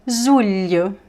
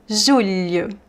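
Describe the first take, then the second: No difference in how they are said.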